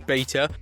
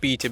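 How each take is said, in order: First: It is said in an American accent. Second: It is said in a non-American accent.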